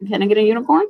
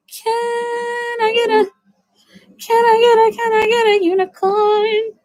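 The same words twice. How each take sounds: First: Said in the usual way. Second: Very high, airy unicorn voice; squeaky magical unicorn asking. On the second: Pretend. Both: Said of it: "that's my impression of a unicorn".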